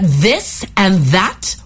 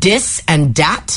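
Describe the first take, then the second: First: The words begin with a TH sound. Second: The words begin with a D sound.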